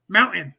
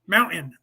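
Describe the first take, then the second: First: The t in the middle is dropped. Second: The same.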